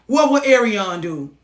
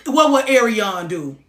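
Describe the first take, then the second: No difference in how they are said.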